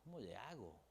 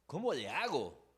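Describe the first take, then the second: First: Helpless murmur. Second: Desperate plea. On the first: Quiet voiced helpless question. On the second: Voicing a desperate question. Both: Retold or imitated.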